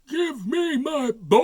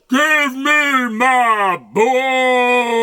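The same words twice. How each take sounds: First: It is said in a small, quiet voice. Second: It is said in a big, loud voice.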